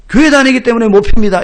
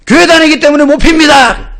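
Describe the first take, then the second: First: Loud, steadier repeat of the refusal; firm military reply. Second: Loud, higher shouted refusal, 교회 stressed; military shout. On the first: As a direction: say it again firmly, standing to attention. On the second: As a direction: shout it at attention to the squad leader. Recruit's loud military reply. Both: Retold or imitated.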